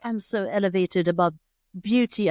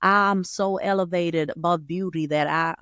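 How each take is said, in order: First: Light mock British accent; lightly hammed-up British accent. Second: Slow, badly faked Texan drawl; hammed-up Texan accent, drawn out. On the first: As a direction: put on a hint of a British accent. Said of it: "why you have a British accent". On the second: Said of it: "like, a Texan accent".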